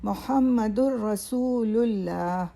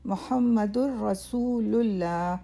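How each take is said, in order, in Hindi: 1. यह 'mu' से शुरू होता है और इसमें 'lullah' है। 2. यह 'mu' से शुरू होता है और इसमें 'lullah' है।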